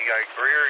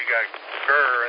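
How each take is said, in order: First: The name is said with a clear 'ee' vowel. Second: The name is said with an 'ur' vowel. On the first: This is how an outsider says the name. "Three ways to say Greer" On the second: This is how a local Southerner says the name. "I used to call it Gurr"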